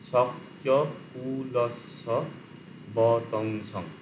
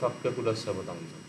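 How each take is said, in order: First: The syllables are said slowly, one by one. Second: The syllables are said quickly, run together. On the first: "প্রথম হচ্ছে ধীরে সুস্থে উচ্চারণ করতে হয়" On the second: "আর দ্রুত করলে"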